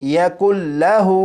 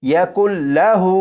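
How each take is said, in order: No difference in how they are said.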